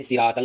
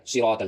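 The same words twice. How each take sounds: First: "صراط ال" with thin s, siraat-al; ص read as seen. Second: "صراط ال" with heavy s, sirot-al; thickened ص. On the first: Teacher warns against this reading, thin seen. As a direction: lighten "صراط ال" to a plain س sound. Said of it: "یہاں سین نہیں پڑھا جائے گا". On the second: Teacher gives the right reading, thickened ص. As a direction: fatten the first consonant of "صراط", darker rounded vowel. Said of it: "سین کو تھوڑا موٹا کر کے پڑھیں گے". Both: Shown as a demonstration.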